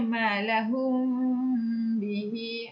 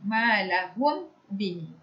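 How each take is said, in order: First: The m is loosened and nasalized for two counts. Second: The m is closed fully and said clearly. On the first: The speaker calls it right. "kita perlu merenggangkan sedikit... dengan kadar dua harakat" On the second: The speaker calls it wrong.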